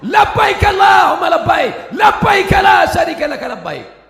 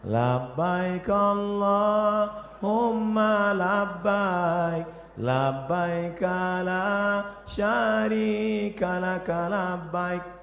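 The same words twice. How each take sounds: First: It is said very loudly and forcefully. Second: It is said softly, like a West Java guide.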